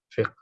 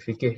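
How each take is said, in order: First: The word has one syllable, ending in consonants. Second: The word has two syllables, with a vowel between. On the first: This is the original form. "yang benar itu qafnya sukun" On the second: This is the local borrowed form. "kalau di Indonesia"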